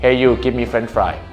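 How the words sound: It is said in a blunt, demanding tone. It sounds like a rude order. "โอ้โหไอ้มึงเอาเฟรนช์ฟรายมา"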